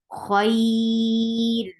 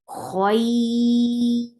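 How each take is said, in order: First: The word stops on a light r sound. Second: The word stops on a light r sound.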